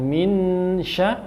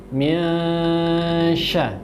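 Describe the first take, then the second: First: The n is pronounced as a clear n. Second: The n is a hidden nasal between n and ng. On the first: The speaker calls it wrong. "bukan min sya" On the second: The speaker calls it right. "tapi min sya"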